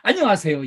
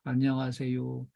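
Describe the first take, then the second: First: It is said clearly with warm, lively energy. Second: It is mumbled quietly with a fading voice. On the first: The greeter sincerely welcomes the customer. The speaker calls it right. "딱 쳐다보고" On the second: The greeter has lost interest and does not care. The speaker calls it wrong. "혼자 웅얼웅얼 인사하는 거예요"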